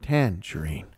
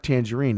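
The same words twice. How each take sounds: First: "tangerine" as TAN-jereen, drawn out; Southern first-syllable stress. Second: "tangerine" stressed on RINE; usual last-syllable stress. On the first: Host demonstrates Southern speech, "tangerine" stressed on TAN. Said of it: "emphasize the first syllable". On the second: Host contrasts with Southern speech, "tangerine" stressed on the end. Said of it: "not the last syllable". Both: Shown as a demonstration.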